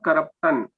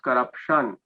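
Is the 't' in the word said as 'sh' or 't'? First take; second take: t; sh. First: The middle consonant is a plain t sound. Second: The middle consonant is a sh sound. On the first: The speaker calls it wrong. "It is not corruption" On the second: The speaker calls it right. "It is corruption"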